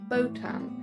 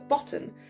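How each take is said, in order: First: The word sounds clearly different from 'bottom'. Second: The word sounds much like 'bottom'. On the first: The speaker calls it right. "I changed the pronunciation to botan" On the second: The speaker calls it wrong. "it just sounded like bottom"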